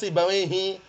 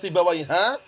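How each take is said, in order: First: The name ends with an i vowel. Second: The name ends with an a vowel. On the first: The speaker calls it right. "pasti dibacanya Sibawaihi" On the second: The speaker calls it wrong. "nggak pernah dibaca Sibawaiha"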